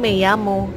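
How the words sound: The double L sounds like an English y. This is how it is said in Spain. "bahasa Spanyol yang Spanyol di negara Spanyol biasanya Meyamu"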